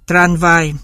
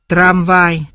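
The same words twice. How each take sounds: First: "tranvai" with n before the v; tongue-tip n in "tranvai" in place of m; dissimilated N. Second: Said in the usual way. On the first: Shown as a demonstration. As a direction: say "tranvai" with n, lips open until v. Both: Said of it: "được chuyển thành N".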